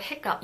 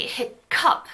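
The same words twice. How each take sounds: First: Hiccup with the cup unaspirated and tensed; natural hiccup. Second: Hiccup with a puff of air on the cup, said slowly; wrong aspirated hiccup. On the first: Teacher showing the natural tensed hiccup. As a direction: keep cup tight, no breath, in hiccup. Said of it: "when you say the word hiccup". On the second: Teacher showing how hiccup is not said. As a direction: breathe hard into the cup of hiccup. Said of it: "we don't say hiccup". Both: Shown as a demonstration.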